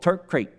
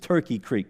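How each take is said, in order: First: The name is said with two syllables. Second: The name is said with three syllables. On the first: This is how the locals say it. "that's how they pronounce it" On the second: This is the name as it is written. "Actually, it's Turkey Creek"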